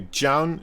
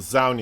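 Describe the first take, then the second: First: The name is said with Korean pronunciation. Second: The name is said with English pronunciation. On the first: "if you want to pronounce it on the Korean way" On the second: "in the English way"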